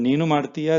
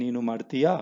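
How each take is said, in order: First: ನೀನು ಮಾಡ್ತೀಯಾ said as a statement, stress on ನೀನು; ನೀನು ಮಾಡ್ತೀಯಾ told flatly, no rise at the end; ನೀನು ಮಾಡ್ತೀಯಾ as a statement, tune falling. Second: ನೀನು ಮಾಡ್ತೀಯಾ? with a rising tune on ಮಾಡ್ತೀಯಾ; ನೀನು ಮಾಡ್ತೀಯಾ? with a question rise on the last syllable. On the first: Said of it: "is already a statement". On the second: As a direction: ask ನೀನು ಮಾಡ್ತೀಯಾ? lifting the end. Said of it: "Just change the tone". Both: Shown as a demonstration.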